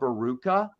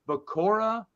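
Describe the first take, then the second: First: The name is said as Ba-ru-ka. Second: The name is said as Ba-ku-ra. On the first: The speaker calls it wrong. "I used to call Baruka" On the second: The speaker calls it right. "I do know that I tried to correct myself"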